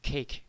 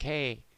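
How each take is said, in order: First: The final k sound is clearly pronounced. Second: The final k sound is left off. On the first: "instead of saying cake" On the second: "they just drop off the end"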